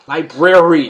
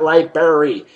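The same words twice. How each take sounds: First: The word is said with the full 'brary' ending. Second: The word is said with a 'berry' ending. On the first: The speaker calls it right. "it's a library" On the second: The speaker calls it wrong. "not library. It's not a berry"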